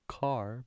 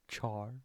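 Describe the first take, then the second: First: The word begins with a k sound. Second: The word begins with a ch sound. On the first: "or car because it's a character?" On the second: "Is it char, C H A R"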